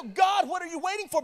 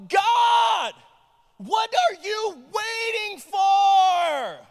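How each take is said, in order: First: Said in the usual way. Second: High, loud, slow plea to God; desperate cry. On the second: Real, not acted. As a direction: cry it out to heaven. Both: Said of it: "This is the sentiment that I feel".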